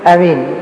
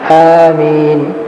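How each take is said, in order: First: The first vowel is kept short. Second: The first vowel is drawn out long. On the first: "يعني بالقصر ليس بالمد" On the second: "آمين بالمد مع تخفيف الميم"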